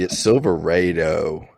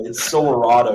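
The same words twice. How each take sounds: First: Silverado said slowly as sil-ver-AY-do, the 'ay' vowel drawn out; southern mispronunciation. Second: Silverado said as sil-ver-AH-do, the middle 'ah' as in father; correcting a friend: Silverado with the 'ah' vowel; correct pronunciation. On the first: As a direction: stretch the 'ay' in Silverado, deliberately wrong. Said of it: "I'm doing this for a bit". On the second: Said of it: "We're not letting that go by". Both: Shown as a demonstration.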